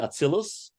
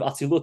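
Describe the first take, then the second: First: It is said in an Ashkenazi pronunciation, ending in s. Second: It is said in a Sephardic pronunciation, ending in t.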